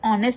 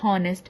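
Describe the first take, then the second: First: The word begins with a vowel, no h. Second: The word begins with an h sound. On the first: The speaker calls it right. "આપણે ઓનેસ્ટ બોલીએ છીએ" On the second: The speaker calls it wrong. "ના કે હોનેસ્ટ"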